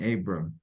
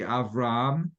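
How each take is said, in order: First: The name is said with a b sound. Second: The name is said with a v sound. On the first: This is the English form of the name. "in English the English is pronounced a little differently" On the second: This is the Hebrew form of the name. "in Hebrew it'd be Avram"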